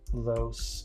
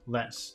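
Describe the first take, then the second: First: The word is pronounced like 'lo-ess'. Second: The word is pronounced like 'less'. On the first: The speaker calls it wrong. "I'm thinking I'm pronouncing it wrong again" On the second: The speaker calls it right.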